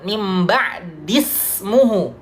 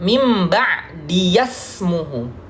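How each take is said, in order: First: The ya after ba'di has no vowel. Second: The ya after ba'di takes an a-vowel. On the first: This is the original reading of the word. "semula mim ba'di, ya-nya sukun" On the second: This is the reading before hamzat al-wasl. "di sini difathahkan"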